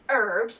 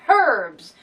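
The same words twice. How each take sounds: First: The word starts without an H sound. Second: The word starts with a clear H sound. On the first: This is the American way of saying it. The speaker calls it wrong. "you say herbs" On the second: This is the English way of saying it. The speaker calls it right. "because there's a fucking H in it"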